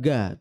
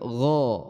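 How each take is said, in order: First: The consonant is a plain, thin g sound. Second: The consonant is a thick, throaty gh sound. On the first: The speaker calls it wrong. "bukan ga" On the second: The speaker calls it right. "tapi gha ... dia harus tebal"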